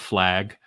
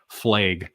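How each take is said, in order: First: The word is said in a plain accent. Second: The word is said in a Canadian accent. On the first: The speaker calls it right. "instead of flag" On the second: The speaker calls it wrong. "she says flag"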